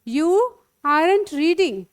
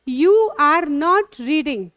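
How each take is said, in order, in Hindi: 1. Are और not मिलकर एक छोटा शब्द बन जाते हैं। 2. Are और not अलग-अलग शब्दों की तरह बोले जाते हैं।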